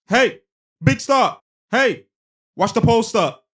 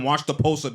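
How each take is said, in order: First: High, loud call to a teammate. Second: Said in the usual way. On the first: Retold or imitated. Player telling Horford to watch the post, loud high call. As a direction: shout instructions across the court. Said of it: "He's telling Horford". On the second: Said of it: "He's telling him".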